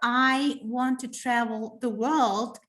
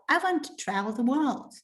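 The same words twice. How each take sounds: First: Each word is said separately and distinctly. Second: The words run together, linked into one flow. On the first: The speaker calls it wrong. "they will be saying not" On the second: The speaker calls it right. "They're connecting all the words and they are linking them"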